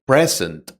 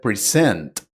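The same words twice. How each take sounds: First: "present" stressed on the first syllable, PRE-zent. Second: "present" stressed on the second syllable, pre-SENT. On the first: Teacher showing the noun for a gift, "present" stressed at the front. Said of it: "are stressed on the first syllable". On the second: Teacher showing the verb meaning give or show, "present" stressed at the end. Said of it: "on the second syllable". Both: Shown as a demonstration.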